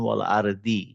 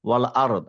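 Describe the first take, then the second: First: The last word ends with an added 'i' vowel. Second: The last word ends on a bare consonant. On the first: The reading continues without stopping. The speaker calls it wrong. "আপনি বলছেন ওয়াল আরদি" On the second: The reader stops at this point. The speaker calls it right. "যেহেতু আপনি থেমে গেছেন এখানে, তাহলে আপনাকে সুকুন দিয়ে থামতে হবে"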